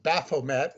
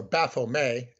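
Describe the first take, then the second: First: Said in the usual way. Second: "Baphomet" with a silent final t, ending in "-may"; French pronunciation. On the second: Shown as a demonstration. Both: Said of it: "they would say in France".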